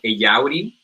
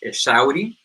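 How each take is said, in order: First: The middle consonant is a y sound. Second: The middle consonant is an sh sound. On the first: The speaker calls it wrong. "which I just didn't think of it" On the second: The speaker calls it right. "it's supposed to be pronounced Eshauri"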